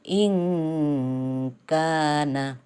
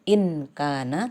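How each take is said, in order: First: The n sound is blurred and nasalized into k. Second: The n sound is pronounced clearly and fully. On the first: The speaker calls it right. "harus dibaca samar-samar" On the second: The speaker calls it wrong. "Tidak boleh dibaca in kana"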